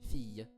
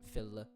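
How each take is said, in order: First: The double L is said as a Y sound. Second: The double L is said as an L sound. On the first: "slurring those L's together into like a Y sound" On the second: "instead of"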